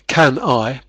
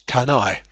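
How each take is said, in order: First: The two words are said separately. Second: The two words are run together. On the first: "So can I becomes" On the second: "all these words are run together"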